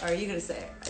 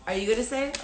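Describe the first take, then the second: First: Lower, softer falling answer; nervous echo. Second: Nervous asking. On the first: Re-enacting the other nervous lover, low soft echo. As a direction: imitate the other lover handing it back. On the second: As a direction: imitate one nervous lover prompting the other. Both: Retold or imitated. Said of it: "both of us are like".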